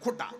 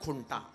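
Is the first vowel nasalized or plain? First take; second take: plain; nasalized. First: The first vowel is plain, without nasalization. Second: The first vowel is nasalized before the t. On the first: This is how unschooled people say it. "जे माझ्यासारखे अडाणी आहेत ते म्हणतात खुटा" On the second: This is how educated people say it. "जे शिकलेले आहेत ना ते काय म्हणतात खुंटा"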